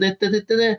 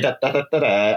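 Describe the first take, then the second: First: The pitch bounces up and down like a song. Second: The pitch goes down and the end drags long. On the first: "you go up and down and sing your song" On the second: "you go down, and then it's long"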